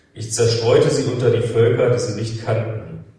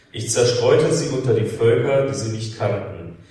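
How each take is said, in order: The two takes are said the same way.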